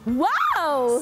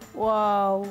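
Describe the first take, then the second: First: It is said with a happy tone. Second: It is said with a sad tone.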